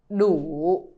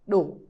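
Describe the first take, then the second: First: The word is said slowly and fully. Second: The word is said quickly and shortly.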